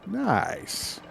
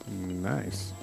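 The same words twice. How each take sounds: First: The word sounds warm and sincere. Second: The word sounds unsure and puzzled. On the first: The speaker genuinely approves. "then it's a good nice. It's, it's sincere nice" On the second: The speaker does not know what to think. "that means I don't know what to think"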